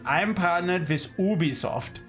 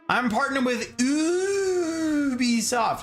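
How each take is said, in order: First: It is said in a German accent. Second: It is said in the speaker's normal accent.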